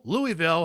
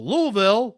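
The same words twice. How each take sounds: First: Louisville in three syllables, LOO-ee-vill; alternative pronunciation. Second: Louisville high and loud as LOO-vill; Louisville without the middle "ee"; local pronunciation. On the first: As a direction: say Louisville loudly with the "ee" sounded. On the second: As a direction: offer Louisville in two syllables, rising. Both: Shown as a demonstration. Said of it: "however you want to pronounce it".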